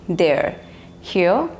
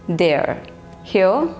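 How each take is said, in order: The two takes are said the same way.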